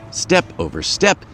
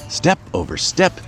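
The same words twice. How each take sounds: The two takes are said the same way.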